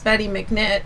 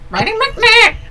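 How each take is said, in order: First: It is said in the speaker's normal voice. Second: It is said in a put-on chicken-like voice.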